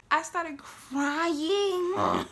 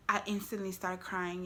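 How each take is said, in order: First: High, loud, long-drawn mock bawl; mock wailing. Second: Said in the usual way. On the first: Storyteller mocking herself as a big baby, wailing. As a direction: stretch "crying" into a hammed-up wail.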